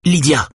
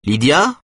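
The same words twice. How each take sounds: First: High, firm address by name; firm, high-pitched, falling at the end. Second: High, rising call of a name; name called high, as a question. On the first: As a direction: call her to order. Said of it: "dit-elle d'une voix ferme". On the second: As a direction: call out to find someone. Social worker calls into the house. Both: A narrator's reading.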